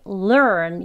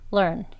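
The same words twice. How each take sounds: First: The vowel is strong, long and tense. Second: The vowel is weak, short and lightly tensed. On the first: The word is being emphasized. "강조할 때의 발음이 learn 이렇게 발음하는 거고요" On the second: The word is said in ordinary conversation. "긴장만 줬다가 푸는 정도로 발음을 하셔서 learn, learn 이렇게 발음을 합니다"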